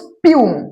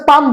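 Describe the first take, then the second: First: The vowel is a long 'yoo' sound. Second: The vowel is a short 'a' sound. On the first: The speaker calls it right. "ওটাকে বলবো স্পিউম" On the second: The speaker calls it wrong. "উচ্চারণটা স্পাম বলা উচিত নয়"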